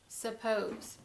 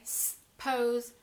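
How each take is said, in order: First: Said in the usual way. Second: SUPPOSE broken as s ... pose; clapped syllables. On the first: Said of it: "when we clap that out, we would say". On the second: Shown as a demonstration. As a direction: hold the s, then say pose separately. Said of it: "when we clap that out".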